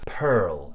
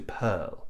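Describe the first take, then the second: First: "pearl" slowly, with the R sounded before the L; rhotic R. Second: "pearl" with a silent R, as in RP; non-rhotic vowel. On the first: Teacher showing other English accents, R sounded in "pearl". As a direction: curl the tongue back in "pearl", American style. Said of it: "the tongue tends to curl up and back". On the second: Teacher contrasting with BBC English, R-less "pearl". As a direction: say "pearl" with a plain neutral vowel before L. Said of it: "the R after the vowel is silent". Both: Shown as a demonstration.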